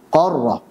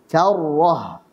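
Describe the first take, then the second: First: The first consonant is heavy and thick. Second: The first consonant is light and thin. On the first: The speaker calls it wrong. "Kesalahannya adalah qarrah" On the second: The speaker calls it right. "Kita baca yang benar"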